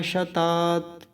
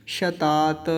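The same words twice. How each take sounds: First: शतात held, then stopped on t; halant stop. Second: शतात released into "ta"; final vowel voiced. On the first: Teacher showing the halant, शतात closed on t. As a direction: end शतात on a bare t. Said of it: "लेकिन अभी क्या बोलेंगे?". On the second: Teacher showing no halant, शतात ending in "ta". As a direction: add an "a" to the end of शतात. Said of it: "हलंत नहीं होता तो क्या बोलते?". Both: Shown as a demonstration.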